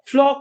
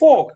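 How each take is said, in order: First: The word is said with an L sound. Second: The word is said without an L sound. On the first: The speaker calls it wrong. "ফ্লক না" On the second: The speaker calls it right. "এটার উচ্চারণ হচ্ছে ফোক"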